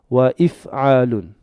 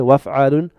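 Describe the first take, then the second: First: A glottal stop separates the two words. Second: The words run together with no glottal stop. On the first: The speaker calls it right. "this hamza here is always pronounced" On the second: The speaker calls it wrong. "I don't say waf'alun"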